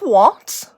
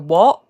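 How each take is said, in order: First: The final T is clearly pronounced. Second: The final T is not clearly pronounced. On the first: This is how imitators say it. The speaker calls it wrong. "really enunciating that T" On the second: This is how the speaker's group actually says it. The speaker calls it right. "but we go what"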